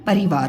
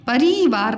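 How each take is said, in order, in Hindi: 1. पहला इ स्वर छोटा रखा जाता है। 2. पहला इ स्वर खींचकर लंबा बोला जाता है। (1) "कम टाइम लगा इसके उच्चारण तो इसकी छोटी ही लग गया" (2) "परिवार नहीं होता है"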